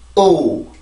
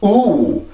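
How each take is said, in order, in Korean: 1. 이 모음은 성대를 긴장시켜서 발음해요. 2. 이 모음은 소리를 높여서 발음해요. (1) "성대가 한번 긴장이 되면 돼요" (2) "이렇게 소리를 높여서 우, 우 이렇게 생각하는 경향이 있는데 강세는 그게 아니고"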